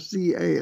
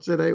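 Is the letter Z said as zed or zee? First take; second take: zee; zed. First: Z is said as zee, American style. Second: Z is said as zed, non-American style.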